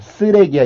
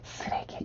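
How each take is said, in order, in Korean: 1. 보통의 큰 목소리로 말합니다. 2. 숨을 섞어 속삭이듯 말합니다. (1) "이렇게 하지 않잖아요" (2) "이런 식으로 발음을"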